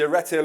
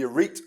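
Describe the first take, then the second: First: The name does not sound like a greeting. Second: The name sounds like a casual Geordie hello. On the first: The speaker calls it right. "It's the Arete Learning Trust" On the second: The speaker calls it wrong. "they think it's the Geordie Hello Academy"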